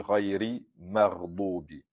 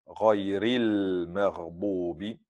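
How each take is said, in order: First: The L sound before maghdubi is dropped. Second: The L sound before maghdubi is pronounced. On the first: The speaker calls it wrong. "on ne prononce pas le lem" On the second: The speaker calls it right. "il y a la lettre lem"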